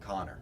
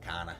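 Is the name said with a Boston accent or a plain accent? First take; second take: plain; Boston. First: The name is said with a plain accent. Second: The name is said with a Boston accent.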